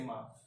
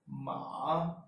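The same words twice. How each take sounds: First: The syllable is short, with no pitch contour. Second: The pitch falls and then rises. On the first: "the neutral tone, which doesn't have any tone on top of it" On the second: "it first falls and then rises"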